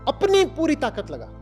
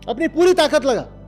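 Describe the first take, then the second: First: The first word is strongly emphasized. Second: The first word carries no special emphasis.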